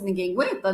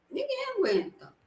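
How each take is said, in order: First: Said in the usual way. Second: Mock exasperation. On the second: Repeated as an exasperated quip.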